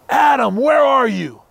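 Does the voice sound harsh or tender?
harsh. It sounds harsh, like a stern arresting officer.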